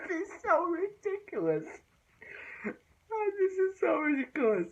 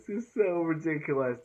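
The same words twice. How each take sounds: First: High squeaky laugh through the words; can't get it out for laughing; cracking up at the ridiculous line. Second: Said in the usual way. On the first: Real, not acted. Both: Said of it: "such a ridiculous quote".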